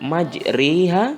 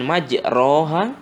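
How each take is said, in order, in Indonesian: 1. Vokal setelah r adalah i yang jelas. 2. Vokal setelah r adalah a yang jelas. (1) "bukan majriha, ... bukan I" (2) "bukan majroha, ... bukan A"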